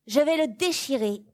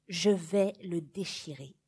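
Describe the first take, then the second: First: Higher and louder, falling on déchirer; loud defiant vow. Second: Said in the usual way. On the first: Acted. Child warning the governess, loud defiant vow. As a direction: announce it like a warning. Child announcing the forbidden act.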